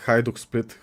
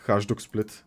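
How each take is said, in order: Both takes have the same delivery.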